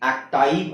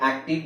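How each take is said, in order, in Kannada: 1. ಎರಡನೇ ಸ್ವರ 'eye' ಧ್ವನಿ. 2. ಎರಡನೇ ಸ್ವರ ಚಿಕ್ಕ 'ih' ಧ್ವನಿ.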